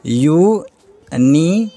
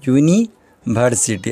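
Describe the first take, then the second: First: यूनिवर्सिटी drawn out very slowly syllable by syllable, rising at the end; slow spelled-out pronunciation. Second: यूनिवर्सिटी said slowly and clearly, syllable by syllable, falling to a close; slow settled pronunciation. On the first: Teacher sounds out यूनिवर्सिटी for students, slow and rising. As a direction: stretch out यूनिवर्सिटी slowly like a question, each syllable apart. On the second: Teacher confirms यूनिवर्सिटी for students, slow and falling. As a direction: settle यूनिवर्सिटी slowly and firmly as the final answer.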